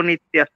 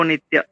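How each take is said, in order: No difference in how they are said.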